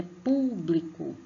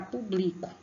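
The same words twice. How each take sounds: First: "público" slow, leaning on a long "pú"; stress on first syllable. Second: "público" as "publico", stress moved onto "bli"; unaccented misreading. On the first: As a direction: stretch the "pú" of "público". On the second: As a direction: read "público" without its accent, leaning on "bli". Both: Shown as a demonstration. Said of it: "Mas é público".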